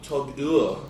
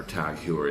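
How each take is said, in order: First: Heuer said like hoy-er, rhyming with lawyer; correct pronunciation. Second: Heuer said like hooer, rhyming with sewer; mispronounced brand. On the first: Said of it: "Oh, that's how you say it". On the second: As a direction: Tag Heuer with Heuer as hoo-er. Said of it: "if I'm pronouncing it correctly". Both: Shown as a demonstration.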